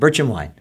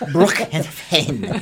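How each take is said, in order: First: The name is said in a plain accent. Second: The name is said in a foreign accent.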